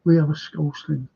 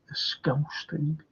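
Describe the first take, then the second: First: Said in the usual way. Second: Slow whisper of a Scouse thing, voiceless. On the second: Shown as a demonstration. Repeats phrase, then whispers it.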